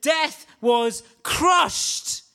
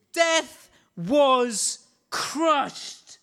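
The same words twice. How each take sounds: First: Shout. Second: Drawn out. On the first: Repeated exclamation, shouted. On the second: Repeated exclamation, slowed. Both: Real, not acted.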